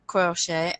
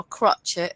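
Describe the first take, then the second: First: Said in the usual way. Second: "crochet" said as CROTCH-et, with a hard t; friend's Geordie pronunciation. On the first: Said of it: "as my friend Geord-, Geordie calls it". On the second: Shown as a demonstration. Presenter quoting how a friend calls it, "crochet" as CROTCH-et. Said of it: "Apparently that's how they say it in".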